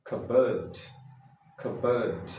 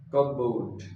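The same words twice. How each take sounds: First: Cupboard said "KUB-ud", p silent; correct way. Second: Cupboard said "CUP-board" with the p heard; wrong way. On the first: Teacher models the correct cupboard. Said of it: "This is cupboard". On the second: Teacher shows the common mistake with cupboard. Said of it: "This way people say cupboard". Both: Shown as a demonstration.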